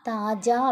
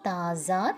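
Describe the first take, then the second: First: The middle consonant is a j sound. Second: The middle consonant is a z sound. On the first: "தாஜா அப்படின்னும் read பண்ணலாம்" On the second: "சரியான pronunciation பார்த்தீங்கன்னா ஸ் அப்படின்ற sound வரும்"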